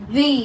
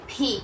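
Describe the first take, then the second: First: English letter V in ভি; corrected English pronunciation. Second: Local-style ভি, as learners usually say it; usual local pronunciation. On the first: Teacher answering what we should say, corrected English pronunciation of ভি. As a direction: model ভি as an English V. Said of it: "আমরা কি বলবো?". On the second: Teacher showing students their habitual letter name, local pronunciation of ভি. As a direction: say ভি the everyday Bengali way. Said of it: "আমরা কি বলি?". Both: Shown as a demonstration.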